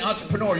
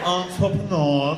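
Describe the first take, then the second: First: The word is said in a plain, ordinary way. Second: The word is said with a showy, inflated flourish. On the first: This is the normal way to say the word. The speaker calls it right. "You did not say entrepreneur" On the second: It makes the thing sound bigger than it was. The speaker calls it wrong. "a spin on to make it sound like it was bigger than it was"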